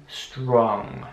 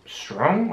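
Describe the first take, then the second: First: "strong" slow, with a very rounded O. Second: "strong" with the O not rounded, as a learner's mistake; wrong unrounded O. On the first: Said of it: "das O sehr ründlich auszusprechen". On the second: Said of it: "Nicht strong oder so". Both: Shown as a demonstration.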